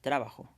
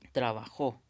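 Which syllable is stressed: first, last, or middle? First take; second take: first; last. First: The stress is on the first syllable. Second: The stress is on the last syllable. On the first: "si le pones acento acá atrás, diría trabajo" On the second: "sería correcto decir con jo sería la sílaba tónica"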